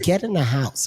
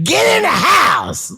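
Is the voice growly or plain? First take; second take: plain; growly. First: It is said plainly, without a growl. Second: It is said with a rough growl. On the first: "There's no growl" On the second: "the way that I figured it, it's like"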